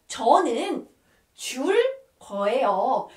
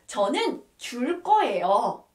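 First: "저는 줄 거예요" split by short pauses; teacher's careful model of "저는 줄 거예요", word by word; piece-by-piece demonstration. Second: Said in the usual way. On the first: Shown as a demonstration. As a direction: say "저는", "줄", "거예요" one at a time. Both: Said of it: "when you want to say".

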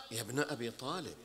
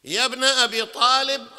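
First: Soft repeat. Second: A full-voiced call to the crowd; loud calling out. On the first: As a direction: say يا ابن أبي طالب low and soft, trailing off at طالب. Soft repeat after loud call. (همس منخفض) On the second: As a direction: belt يا ابن أبي طالب high with weight on أبي. Loud call then soft repeat. (نداء قوي بصوت مرتفع) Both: Shown as a demonstration.

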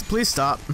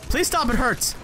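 First: Said in the usual way. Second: High mock-pained whine; whiny plea. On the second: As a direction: whimper it up high like hurt. Pleading with enemy in game.

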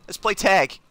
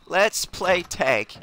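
First: Said in the usual way. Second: Let's play tag said very slowly; slow drawn-out taunt. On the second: Shown as a demonstration. Taunting an enemy in the game, slow drawn-out tease. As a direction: stretch it out teasingly.

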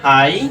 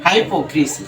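First: হাইপোক্রিসি split as hai, po, kri, si; syllable by syllable. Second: Said in the usual way. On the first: Shown as a demonstration. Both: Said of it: "এটাকে যদি আমরা ভাঙি".

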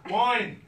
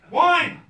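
First: Laughing repeat. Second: A high, loud cry of panic; sudden shout. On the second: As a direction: blurt it out at the top of your voice. Sudden realisation he forgot wine. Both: Retold or imitated.

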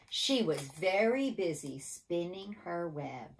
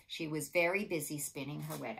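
First: Measured refrain, stretched out word by word; say-along refrain. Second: Said in the usual way. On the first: Shown as a demonstration. Teacher leading children in the refrain, deliberate and drawn out. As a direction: draw out each word so children can join in. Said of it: "Are you ready?". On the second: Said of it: "You have to say with me".

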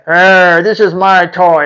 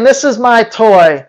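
First: Mock dog growl; growling possessive dog. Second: Said in the usual way. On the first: Dog claiming its owner as a toy, mock growling. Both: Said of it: "He's saying".

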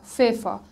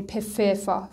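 First: "ففا" starting straight on f; silent p pronunciation. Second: "پففا" with a separate p syllable first; wrong pf pronunciation. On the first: Teacher corrects the pepper word, f-only start on "ففا". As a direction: begin "ففا" with plain f, no p. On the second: Teacher shows what we can't say, separate p in "پففا". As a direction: add an audible pe before the f in "پففا". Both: Shown as a demonstration.

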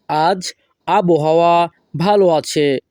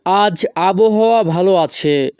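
First: Slow, pauses after "আজ" and "আবহাওয়া"; piece by piece. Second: Said in the usual way. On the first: Shown as a demonstration. Teacher repeating the sentence for learners, piece by piece. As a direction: break up "আজ আবহাওয়া ভালো আছে" slowly.

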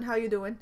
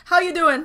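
First: Said in the usual way. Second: Higher, louder, hammed-up How you doing; cheesy pickup-line greeting. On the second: Shown as a demonstration. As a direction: lay on the flirty charm. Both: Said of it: "please write, "How you doing?".

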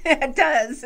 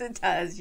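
First: Amused agreement through a laugh. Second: Said in the usual way. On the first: Real, not acted. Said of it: "laughs at the robot line". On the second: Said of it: "quieter repeat after the laugh".

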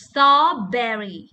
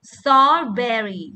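Both takes have the same delivery.

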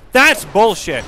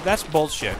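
First: Raised, outraged; higher and louder on the repeat; louder indignant repeat. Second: Said in the usual way. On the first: Real, not acted. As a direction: say it again louder, fed up.

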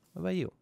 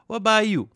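First: High-voiced question; high-pitched query. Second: High, loud mock demand; loud high call. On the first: Player checking the next villager's trades, high-pitched. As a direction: ask it high, without pushing. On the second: Player pestering the next villager, loud high call. Repeats it much louder to villager.

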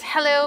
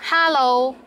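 First: Said in the usual way. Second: "hello" in a Cantonese accent, louder second syllable. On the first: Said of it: "It came from the English hello". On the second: Shown as a demonstration. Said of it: "but with a Cantonese accent".

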